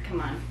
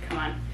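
Both takes have the same delivery.

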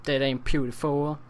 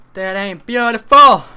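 First: Said in the usual way. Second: Higher and louder, hammed up; loud mock proclamation. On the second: Shown as a demonstration. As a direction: belt it out for the joke. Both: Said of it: "repeated louder".

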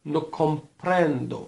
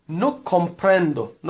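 First: Teacher repeats No comprendo for students; slow repeat. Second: No comprendo, every syllable drawn out; teacher models no comprendo slowly; slow model phrase. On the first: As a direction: model No comprendo slowly. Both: Shown as a demonstration. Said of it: "تکرار بفرمایید".

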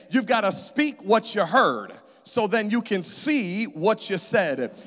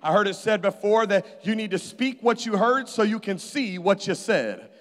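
First: Repeated line, the ending what you said drawn out slowly; slower repeat for emphasis. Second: Said in the usual way. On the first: Shown as a demonstration. Preacher repeating to the congregation, slow and emphatic. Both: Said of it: "I'm gonna say that again".

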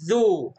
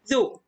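First: "ذو" with the oo held long; long vowel. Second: "ذو" with a short, quick u; short vowel. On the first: Teacher models the long sound for pupils, drawn-out "ذو". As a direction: stretch the vowel of "ذو". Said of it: "صوت طويل". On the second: Teacher models the short sound for pupils, brief "ذو". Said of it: "صوت قصير". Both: Shown as a demonstration.

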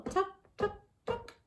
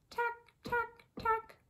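First: Soft, short TUCK knocks; hushed little taps on "Tuck, tuck, tuck"; tapping sound. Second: High, soft, clicky TACK; tiny light knocks on "Tack, tack, tack"; tapping sound. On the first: Lion tapping bottom of shell, muted taps. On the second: Lion tapping top of shell, high soft taps. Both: A narrator's reading.

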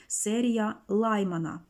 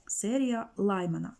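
First: Said in the usual way. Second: "Лаймана" with the stress on "Лай", said slowly; stress on first syllable. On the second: Shown as a demonstration. Teacher showing the student the right stress, slow and deliberate. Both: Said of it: "Наголос на перший склад".

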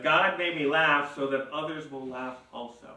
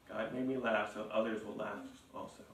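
First: Said in the usual way. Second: Quiet. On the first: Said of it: "Notice that Sarah, Sarah says". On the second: Shown as a demonstration. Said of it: "Sarah says".

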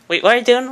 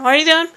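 First: Rising alarm, louder; growing panic, high and loud; alarmed question. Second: High, loud panicked repeat; near-shriek of panic; panicked question. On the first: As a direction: catch someone doing something scary. Alarmed at what's being done. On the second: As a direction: alarm tipping into panic, much higher. Alarm grows into panic. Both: Acted.

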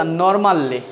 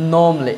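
First: Normally as "nor-MAL-li", R and A sounded; local pronunciation. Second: Normally as two beats, "NOM-lee", silent R; British pronunciation. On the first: Teacher showing how we say it, "nor-mal-li". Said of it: "আমরা বলি কি তা?". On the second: Teacher showing British speech, R-less "nom-lee". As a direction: drop R and middle vowel in normally, "nawm-lee". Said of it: "ব্রিটিশরা কি বলে?". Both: Shown as a demonstration.

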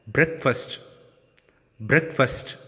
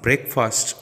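First: "Breakfast" with a weak ending, "brek-fust"; correct BREAKFAST. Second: "breakfast" with a full A, "brek-faast"; wrong BREAKFAST. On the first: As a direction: reduce the last vowel of "Breakfast". ("Breakfast" said "BREK-fust") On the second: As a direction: open the last vowel of "breakfast". ("breakfast" ending like "fast") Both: Shown as a demonstration. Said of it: "This is not breakfast".

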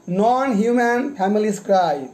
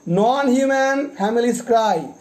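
Both takes have the same delivery.

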